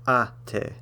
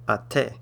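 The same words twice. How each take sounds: First: The stress is on the first syllable. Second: The stress is on the second syllable. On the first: The speaker calls it right. "it falls on the a part. It's ate" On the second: The speaker calls it wrong. "not ate"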